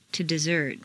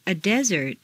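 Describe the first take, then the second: First: DeSERT, stressed on the second syllable. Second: DEsert, stressed on the first syllable. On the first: Teacher models verb "desert", second-syllable stress. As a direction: hit SERT in "desert". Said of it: "to the second syllable". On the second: Teacher models noun "desert", first-syllable stress. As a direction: hit DE in "desert". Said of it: "first syllable for nouns". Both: Shown as a demonstration.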